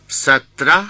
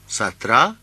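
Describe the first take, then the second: First: ستره said as satra, rising; ستره pronounced satra as a Hindi teacher would; Hindi pronunciation. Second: ستره said as satra, rising; ستره pronounced satra for repetition; Hindi pronunciation. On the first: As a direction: model ستره clearly as satra with a rising ending. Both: Shown as a demonstration. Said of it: "teacher models Hindi number".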